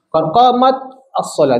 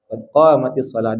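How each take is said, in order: First: Qamat ends in t, then a separate as. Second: Qamat links straight into solah with an i. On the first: The speaker calls it wrong. "Dia tak lancar" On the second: The speaker calls it right. "nak mudahkan qad qamatis solah"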